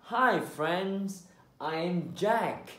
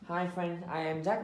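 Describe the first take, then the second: First: The words are drawn out with longer sounds. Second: The words are short and clipped, Vietnamese-style. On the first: The speaker calls it right. "so make the sounds longer" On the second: The speaker calls it wrong. "Mình không nói là hi friends, I am Jack nhé, như kiểu tiếng Việt đấy"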